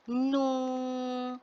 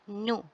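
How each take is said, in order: First: The vowel is long and drawn out. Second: The vowel is short and clipped. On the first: "hendaklah dibaca panjang" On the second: "kita baca dengan pendek"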